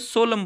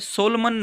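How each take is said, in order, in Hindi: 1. अंतिम n ध्वनि मौन रहती है। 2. अंतिम n ध्वनि उच्चारित होती है। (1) "सोलम बोला जाता है" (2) "सोलमन नहीं बोला जाता"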